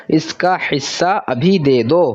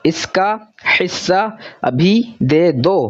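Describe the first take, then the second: First: Said in the usual way. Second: Each word read out slowly on its own, testing the sound. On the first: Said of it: "ओ वाला sound यहाँ पर इसको suit कर रहा है". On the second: Shown as a demonstration. Teacher slowly trying the sentence out for pupils, word by word. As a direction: sound out इसका हिस्सा अभी दे दो slowly, word by word. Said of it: "तो ऊ वाला साउंड सूट नहीं कर रहा".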